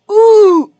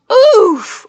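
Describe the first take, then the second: First: Roblox oof. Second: High short hurt oof; Roblox oof. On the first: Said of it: "that's not good either". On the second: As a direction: yelp a cartoon oof. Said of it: "the Roblox oof". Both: Shown as a demonstration.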